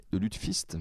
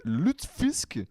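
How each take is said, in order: First: Said in the usual way. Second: Lutefisk said high and rising, like a question; careful pronunciation. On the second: Shown as a demonstration. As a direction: try out lutefisk with a high, unsure rise. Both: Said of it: "Je sais pas comment ça se prononce".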